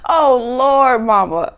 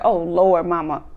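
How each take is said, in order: First: Mock wail. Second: Said in the usual way. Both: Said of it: "He's like".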